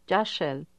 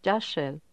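The two takes are said the same way.

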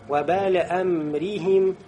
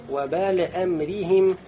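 The two takes are said the same way.

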